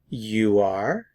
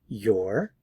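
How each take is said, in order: First: It is said as two full words. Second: It is said as one contracted syllable.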